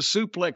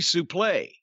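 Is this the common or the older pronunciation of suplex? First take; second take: common; older. First: It is said in the common, changed pronunciation. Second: It is said in the older, original pronunciation. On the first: This is the later, altered form of the word. "it was morphed into suplex somehow" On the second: This is the original, proper form of the word. "the legitimate pronunciation"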